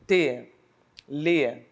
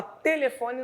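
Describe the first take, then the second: First: "telefone" as te... le... fo... ne, long gaps; very slow, syllable by syllable. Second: Said in the usual way. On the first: Shown as a demonstration. Teacher showing four syllables, very slowly. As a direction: draw out and separate each syllable. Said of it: "se eu falar lentamente". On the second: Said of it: "Se eu falar telefone, não consigo perceber".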